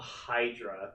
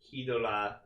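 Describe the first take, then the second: First: The name is said like English 'Hydra'. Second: The name is said like 'Hidola' with an L. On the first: This follows the written spelling. "the romanization is Hydra" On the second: This follows how the show says it. "how they're pronouncing it"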